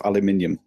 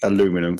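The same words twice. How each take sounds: First: ALUMINIUM in five syllables, stress on MIN; British aluminium. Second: ALUMINUM in four syllables, stress on LU; American aluminum. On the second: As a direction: say ALUMINUM as "a-LOO-mi-num". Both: Shown as a demonstration. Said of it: "Fuck off".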